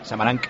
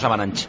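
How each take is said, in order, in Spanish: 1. El nombre termina en sonido k. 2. El nombre termina en sonido ch. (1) "CH se pronuncia K" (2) "no Samaranch"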